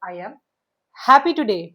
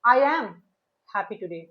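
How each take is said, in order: First: The stress falls on happy and today. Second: The stress falls on the words I am. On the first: "तो happy और today दोनों को emphasise करना।" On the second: "तो ये आई एम पे emphasise हो गया।"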